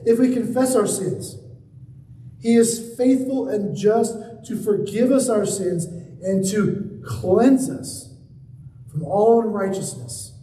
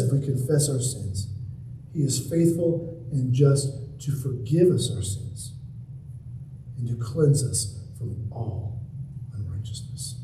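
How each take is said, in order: First: Full-voiced, deliberate verse reading; proclaimed scripture. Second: Low, softened verse with long pauses; hushed scripture. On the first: Preacher declaring a Bible verse to the congregation, emphatic proclamation. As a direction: proclaim it firmly, stretching the key words. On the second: Preacher repeating the verse as assurance of forgiveness, hushed and low. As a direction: let it sink down quietly, ending very soft. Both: Real, not acted.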